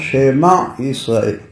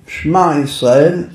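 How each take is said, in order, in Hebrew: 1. נשמעת תנועה קצרה אחרי האות הראשונה. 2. לא נשמעת תנועה אחרי האות הראשונה. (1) "זה שוונע ולא שוונח" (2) "לא אומרים"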